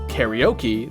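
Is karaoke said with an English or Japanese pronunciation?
English. It is said with English pronunciation. Listeners recognize the word at once. "they'll immediately know what you're talking about"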